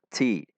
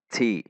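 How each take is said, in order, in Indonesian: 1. Huruf t mengeluarkan hembusan udara yang kuat. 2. Huruf t mengeluarkan hembusan udara yang kuat.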